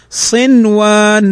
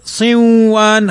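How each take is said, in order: First: "صنوان" with the noon clearly sounded; correct clear noon. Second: "صنوان" wrongly merged as "صوّان"; wrong pronunciation. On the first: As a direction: say "صنوان" keeping the noon distinct. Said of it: "وإنما نقول صنوان". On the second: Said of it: "هذا خطأ". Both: Shown as a demonstration.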